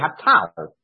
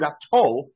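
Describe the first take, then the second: First: The vowel is pronounced as 'ah'. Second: The vowel is pronounced as 'oh'. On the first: It stands in the middle of a verse. "If it was in the middle of a sentence or in the middle of a pasuk, it would be" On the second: It marks the end of a verse. "with a comet is the kind that you find at the end of a pasuk"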